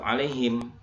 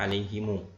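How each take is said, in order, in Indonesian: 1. Kata ini berakhir dengan bunyi m tertutup. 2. Kata ini berakhir dengan vokal u panjang yang ditambahkan. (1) "kalau dia berhenti wakof maka tetap alaihim" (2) "kalau dia wasol maka dibaca alaihimu"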